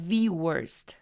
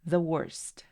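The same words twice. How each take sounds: First: The word the has a long, drawn-out vowel. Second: The word the has a short, reduced vowel. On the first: The speaker wants to emphasize this word. "estoy colocando un poquito más de tiempo a esa I. La estoy prolongando" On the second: Nothing is being emphasized. "si no quieres enfatizar nada, entonces vas a pronunciarlo como the"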